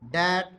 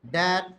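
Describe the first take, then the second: Both takes have the same delivery.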